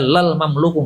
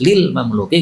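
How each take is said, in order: First: It begins with 'lal' and ends in 'u'. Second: It begins with 'lil' and ends in 'i'. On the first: The speaker calls it wrong. "tidak bisa dibaca lal mamluku, nggak bisa" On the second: The speaker calls it right. "Harus lil mamluki"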